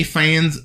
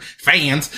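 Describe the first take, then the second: First: Slight Texan accent on "fans"; unintended hint of Texan; accidental Texan twang. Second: Said in the usual way. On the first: Real, not acted. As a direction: let "fans" slip into a Texan drawl. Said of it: "it sounded so Texan". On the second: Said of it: "I don't know why I said it sounded so Texan".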